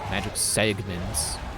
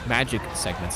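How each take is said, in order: First: The word segments carries the stress. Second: The word magic carries the stress. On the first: The speaker calls it wrong. "not segment" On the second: The speaker calls it right. "With the emphasis on magic"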